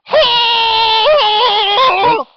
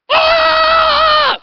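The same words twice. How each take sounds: First: A high scream reined in so it won't peak; scream, but pull it back from full blast; held-back scream. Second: Piercing high battle scream at full volume; all-out berserk gnome shriek, mic peaking; gnome's scream. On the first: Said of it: "try and make it not peak". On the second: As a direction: let the gnome shriek as he lunges. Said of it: "Can you scream again?". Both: Acted.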